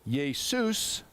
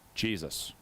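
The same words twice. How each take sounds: First: The name is said with a Greek pronunciation. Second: The name is said with an English pronunciation. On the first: "The Greek pronounced it" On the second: "the English, today, we would pronounce the Greek name as"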